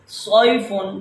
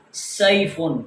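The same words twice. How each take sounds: First: سیفن with a heavy, thick ص, slow. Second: سیفن with a light thin whistled s. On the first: Teacher reads the word with the heavy letter, slow. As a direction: start سیفن with a full heavy ص sound. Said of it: "بھاری آواز کے اندر پڑھنا ہوتا ہے". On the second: Teacher reads the word with the light s for students. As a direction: start سیفن with a thin hissing s. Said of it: "یہ سین سیٹی کے ساتھ break". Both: Shown as a demonstration.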